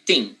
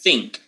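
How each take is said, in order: First: It begins with a hard t sound. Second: It begins with a soft th sound. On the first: "They say think" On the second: "they usually don't don't say think"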